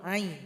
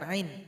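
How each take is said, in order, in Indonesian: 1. Vokalnya dibaca panjang. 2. Vokalnya dibaca pendek. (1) "kita panjangkan itu ain" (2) "bukan ain"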